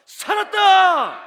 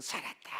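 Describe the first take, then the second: First: Long, high, full-throated shout; korean military style. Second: Soft, limp, no energy; weak mumble. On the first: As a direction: bellow it like soldiers on parade. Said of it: "목소리 크면 그 부대는요, 상 받아요". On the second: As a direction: say it half-heartedly, barely heard. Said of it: "그래가 힘이 나겠어요?". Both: Shown as a demonstration.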